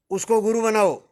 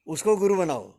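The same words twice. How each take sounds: First: उसको pitched higher and pressed with more force; emphatic urging. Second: Said in the usual way. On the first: Real, not acted. Teacher urging the audience, stressing उसको गुरु बनाओ. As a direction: drive home उसको गुरु बनाओ as a firm appeal.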